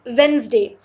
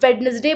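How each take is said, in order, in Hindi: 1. पहला d और बीच का e छोड़ दिए जाते हैं। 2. हर अक्षर बोला जाता है, पहले d समेत।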